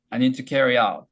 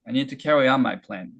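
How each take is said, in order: First: Said in the usual way. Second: Very slow, each word drawn out; unhurried linked-up model reading; slow stretched demo. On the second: Shown as a demonstration. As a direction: stretch the line out slowly. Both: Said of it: "천천히 해볼게요".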